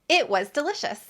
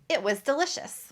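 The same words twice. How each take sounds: First: The pronoun and verb are reduced and fast. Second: The same.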